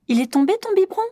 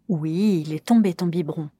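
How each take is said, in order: First: The voice rises at the end. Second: The voice falls at the end.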